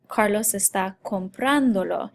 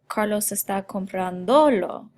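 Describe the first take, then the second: First: The stress in comprándolo falls on 'pran'. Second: The stress in comprándolo falls on another syllable. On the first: The speaker calls it right. "you keep that emphasis on the ah" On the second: The speaker calls it wrong. "instead of"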